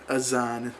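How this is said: The middle consonant is a z sound.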